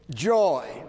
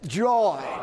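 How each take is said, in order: First: It is said plainly, without special feeling. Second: It is said joyfully, with happy feeling.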